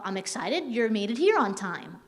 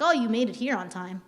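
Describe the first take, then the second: First: Mildly excited, lilting line. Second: Mildly sarcastic remark. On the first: Trainer showing staff one way to say a sentence, excited. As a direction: say it with a touch of excitement. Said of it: "I could say it like". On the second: Trainer showing staff how the same sentence turns sarcastic. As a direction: say it with understated sarcasm. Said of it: "come off very sarcastically". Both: Shown as a demonstration.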